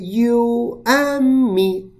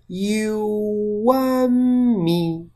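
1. 这些单词是分开说的，没有连读。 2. 这些单词连在一起说，中间有一个类似w的连读音。

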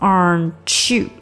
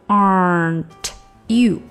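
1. 这两个词连成一个音来读。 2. 这两个词是分开读的，不连读。

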